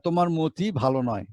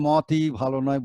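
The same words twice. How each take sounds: First: মতি as mo-ti in the sentence; spoken pronunciation. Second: মতি as maw-ti, open vowel; wrong spelling pronunciation. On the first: Teacher gives an example sentence, মতি with closed o. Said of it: "কিন্তু বলছি মতি". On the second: Teacher shows what we don't say, মতি with open aw. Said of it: "আমরা মতি ভালো নয় বলি না". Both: Shown as a demonstration.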